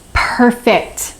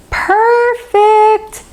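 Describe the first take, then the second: First: Said in the usual way. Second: Perfect pitched way up with glee; delighted high praise. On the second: Shown as a demonstration. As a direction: sing out the word Perfect high and bright.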